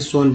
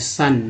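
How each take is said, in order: First: The vowel sounds like 'oh'. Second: The vowel sounds like 'uh'. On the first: The speaker calls it wrong. "ना कि सोन बोल रहा है" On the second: The speaker calls it right. "S ओ N क्या बोलते हैं, सन"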